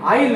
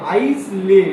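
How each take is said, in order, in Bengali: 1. s নীরব, 'ile' এর মতো বলা হয়। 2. s উচ্চারিত হয়, 'ais-le' এর মতো বলা হয়। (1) "আইল এরকম উচ্চারণ করে" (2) "এখন আইসলে ভাবে পড়ো"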